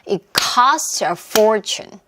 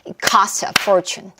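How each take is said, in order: First: The sentence is spoken at a slow pace. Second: The sentence is spoken at a quicker pace.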